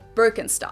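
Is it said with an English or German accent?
English. It is said with an English accent.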